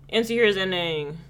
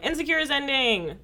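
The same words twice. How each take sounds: First: It is said in a subdued tone. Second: It is said in an excited tone.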